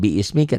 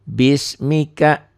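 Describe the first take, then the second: First: The first vowel is drawn out long. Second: The first vowel is kept short. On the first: The speaker calls it wrong. "bukan biismika" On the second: The speaker calls it right. "tapi bismika"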